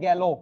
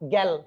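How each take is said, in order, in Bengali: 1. শব্দের শেষে একটি ও-কার যোগ হয়। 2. শব্দটি ল ব্যঞ্জন দিয়ে শেষ হয়। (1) "লাস্ট বর্ণটা ওকারান্ত হয়ে যায়" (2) "এখানে আমি দেখেছি গেল"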